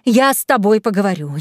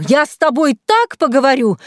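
First: Contained menace at normal pitch; angry threat. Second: Higher, louder, with так punched; escalating threat, stress on так. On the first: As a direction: threaten firmly, holding back a little. (сдержанная злая угроза) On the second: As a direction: hit так hard and high, menacingly. (громкая угроза с ударным «так») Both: A narrator's reading. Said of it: "взвизгнула Лена".

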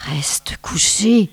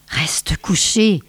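First: Slow whispered murmur. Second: Said in the usual way. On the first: Acted. Snow child secretly murmuring to the boy, slow whisper. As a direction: breathe it close to his ear, slowly. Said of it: "tout en lui murmurant".

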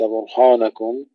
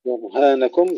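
First: برهانكم with dark, rounded ha; wrong heavy ha. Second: برهانكم with heavy ra, thin ha; light ha. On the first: Teacher shows what to avoid, heavy ha in برهانكم. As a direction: darken the long a after h in برهانكم. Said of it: "ولا نفخم الهاء". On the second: Teacher models برهانكم, thin ha after heavy ra. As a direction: thicken ra, then lighten ha in برهانكم. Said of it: "ثم نرقق الهاء". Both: Shown as a demonstration.

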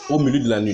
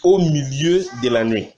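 First: Said in the usual way. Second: Deliberate proclamation of scripture; emphatic verse reading. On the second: Acted. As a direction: announce the verse with weight on the opening. Reads the underlined verse out. (lecture solennelle du verset)

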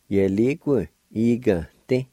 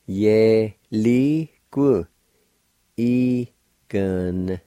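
First: Said in the usual way. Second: "ye, li, ku. Igante" drawn out with gaps between syllables; slow teaching breakdown of "ye, li, ku. Igante". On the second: Shown as a demonstration. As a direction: separate and stretch each syllable of "ye, li, ku. Igante". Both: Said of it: "And together".

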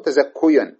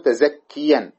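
First: تزكيا with damma on the kaf, tazakkuyan; mock-wrong تزكيا with u before the ya; wrong form. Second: تزكيا with kasra on the kaf, tazakkiyan; correct form. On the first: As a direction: say تزكيا as ta-zak-ku-yan, the rejected damma. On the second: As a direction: say تزكيا as ta-zak-ki-yan, kasra before the ya. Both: Shown as a demonstration. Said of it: "ولا تقول".

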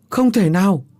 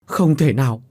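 First: High, loud cry of denial; desperate shout. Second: A touch louder, half-voiced denial; rising disbelief. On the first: Acted. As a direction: scream that it cannot be. (ông Tứ hét lên không tin, giọng cao và rất to) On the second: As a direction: start to refuse the news. (ông Tứ bắt đầu chối bỏ, hơi to) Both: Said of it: "hét lên".

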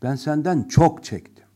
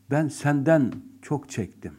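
First: Senden hit louder; stress on senden. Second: Senden slightly raised; stress on senden. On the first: Teacher repeating it with stronger stress on senden. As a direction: punch senden hard. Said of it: "Senden burada vurgu yaptık". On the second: Teacher demonstrating the stress on senden. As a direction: lean on senden. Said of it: "bazen kelime vurgusuyla söylenir". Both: Shown as a demonstration.

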